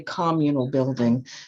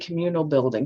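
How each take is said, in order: First: It uses the local South Side pronunciation. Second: It uses the outsider's spelling-based pronunciation.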